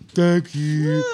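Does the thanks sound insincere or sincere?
insincere. The thanks sounds flat and insincere.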